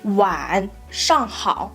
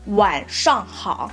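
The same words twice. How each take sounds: First: The first syllable dips low and rises again. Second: The first syllable only falls, said a bit quicker.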